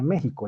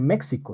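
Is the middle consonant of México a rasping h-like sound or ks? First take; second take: h-like; ks. First: The middle consonant is a rasping h-like sound. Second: The middle consonant is said as ks. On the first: The speaker calls it right. "se dice México... se debe pronunciar con J" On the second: The speaker calls it wrong. "Uno no dice México, estaría mal"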